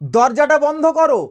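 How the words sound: It is said in a commanding tone. It is an order. "Order হয়ে গেল।"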